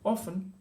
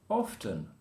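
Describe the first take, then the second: First: The word is pronounced in a casual way. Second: The word is pronounced in a careful way. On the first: "in the casual English, we'll say" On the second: "the correct way to say it would be"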